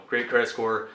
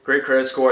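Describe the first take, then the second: First: Said in the usual way. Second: Louder, punched great credit score; emphatic boast. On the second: Real, not acted. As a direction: hit great credit score hard and proud.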